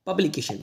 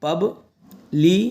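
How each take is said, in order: First: Said in the usual way. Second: publication slowly split "pub - li - ke - shan"; syllable by syllable. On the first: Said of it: "इसको पढ़ा जाएगा publication". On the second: Shown as a demonstration. Teacher teaching how to read publication, slow separate syllables. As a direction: draw publication out with gaps between syllables. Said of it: "ऐसे तोड़ के पढ़".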